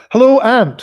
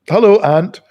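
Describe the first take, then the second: First: Pitched well up and louder; much higher greeting. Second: Said in the usual way. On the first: Shown as a demonstration. Totemic Smith greeting his haggard aunt, high and bright. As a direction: sing out the hello.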